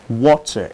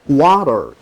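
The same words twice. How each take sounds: First: It is said in a standard British accent. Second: It is said in a standard American accent. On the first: "in standard British pronunciation" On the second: "is standard American pronunciation"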